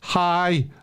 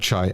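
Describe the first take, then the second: First: The word begins with an h sound. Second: The word begins with a ch sound. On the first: The speaker calls it right. "I think that's how you say it" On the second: The speaker calls it wrong. "you don't say ch"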